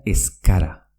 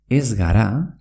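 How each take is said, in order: First: "escara" as es-kara, g hardened to k. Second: Said in the usual way. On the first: Shown as a demonstration. Teacher shows ez gara merging, g becomes k. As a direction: say "escara" with a hard k. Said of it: "Z K". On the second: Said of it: "se pronuncia escara".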